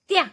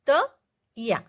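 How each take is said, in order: First: The two sounds are blended into one syllable. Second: The two sounds are said apart, one by one. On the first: "त आणि याला एकदाच तोंडाच्या बाहेर फेकायचं" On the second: "हे आहे अर्ध त आणि हे आहे या"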